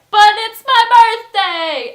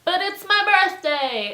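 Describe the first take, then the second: First: Very loud, high, stretched-out shout; escalating birthday yell. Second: High, drawn-out loud objection; loud birthday protest. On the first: Birthday host drowning out the request, slow full-volume yell. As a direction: bellow the protest at full volume. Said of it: "getting louder". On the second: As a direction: protest loudly, stretching it out. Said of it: "he just kept saying this and getting louder". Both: Retold or imitated.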